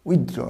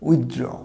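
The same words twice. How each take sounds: First: The 'th' sound is clearly pronounced. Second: The same.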